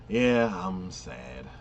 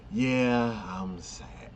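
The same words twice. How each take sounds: First: Drawn-out, mock-glum delivery; dragging the words like a sulky teen; slow mopey yeah I'm sad. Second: Said in the usual way. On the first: Friend retelling a show's mopey hero, slow mock-sad. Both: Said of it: "whatever he says is basically like".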